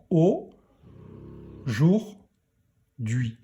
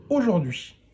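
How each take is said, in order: First: Aujourd'hui as "au", pause, "jour", pause, "d'hui"; aujourd'hui spaced out for a beginning reader; syllable by syllable. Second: Said in the usual way. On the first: Shown as a demonstration. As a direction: break aujourd'hui into three isolated syllables. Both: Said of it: "allez pouvoir lire aujourd'hui".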